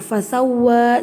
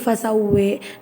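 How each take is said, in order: First: The final vowel is a plain open 'a'. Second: The final vowel is tilted toward an 'e'. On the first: "Fasawwa juga ada" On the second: "jadi fasawwe"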